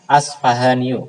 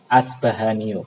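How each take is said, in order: First: The consonant after the s is f. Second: The consonant after the s is b. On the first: "Boleh dibaca Asfahaniyu" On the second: "Boleh dibaca pakai ba"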